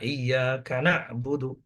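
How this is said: The 'ka' is joined to the second word. The second word seems to begin with 'kana'. The speaker calls it wrong. "seakan-akan katanya itu mulai dari kat- kata yang kedua itu mulai dari kana"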